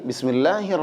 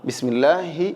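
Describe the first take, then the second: Both takes have the same delivery.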